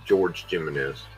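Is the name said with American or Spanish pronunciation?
American. The name has an American English pronunciation.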